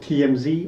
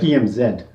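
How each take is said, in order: First: The last letter is said as 'zee'. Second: The last letter is said as 'zed'. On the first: This is how others say it. "They will pronounce it" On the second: This is how it is said in England. "In England, we pronounce it"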